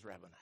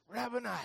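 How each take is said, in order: First: Very low, hushed murmur; hushed recognition. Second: High, sudden cry of recognition; exclaimed recognition. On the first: Mary answers her risen teacher, low hushed voice. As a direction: let it fall low and very soft. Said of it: "She says". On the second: Mary recognises her risen teacher, high exclamation. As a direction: call it out high. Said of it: "He says". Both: Acted.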